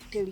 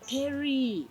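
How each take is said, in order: First: The middle consonant is an L sound. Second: The middle consonant is an R sound. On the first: This is how the name was locally said. The speaker calls it wrong. "we knew him as Telly" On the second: This is the name as it is written. The speaker calls it right. "his name is Terry"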